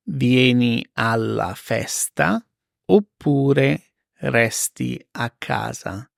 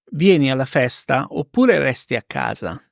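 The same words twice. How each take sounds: First: Slow, spaced repeat; careful slow teacher read; slow and clear. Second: Said in the usual way. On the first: Shown as a demonstration. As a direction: spell it out slowly for learners. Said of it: "slow repeat for learners". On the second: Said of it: "example then slow repeat".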